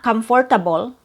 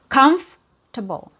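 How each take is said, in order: First: It has four syllables with an R sound. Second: It has three syllables with no R sound. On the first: The speaker calls it wrong. "So it's not comfortable" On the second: The speaker calls it right. "So you have comfortable"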